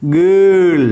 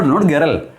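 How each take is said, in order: First: Put-on Girl with a long central er vowel, no r sound; model vowel. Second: Put-on "girl" said with a wrong vowel, as a counterexample. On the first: Teacher to class, modelling "Girl" carefully. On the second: Teacher to class, showing the wrong "girl". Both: Shown as a demonstration. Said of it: "You know, not girl".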